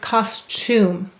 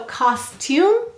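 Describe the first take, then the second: First: The middle consonant sounds like ch. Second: The middle consonant is a clear t. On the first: "The tum turns into a ch" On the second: "So costume becomes"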